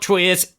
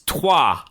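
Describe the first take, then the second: First: The word ends with an s sound. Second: The word ends with a vowel sound. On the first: The speaker calls it wrong. "no, it's not Troyes" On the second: The speaker calls it right. "it's Trois"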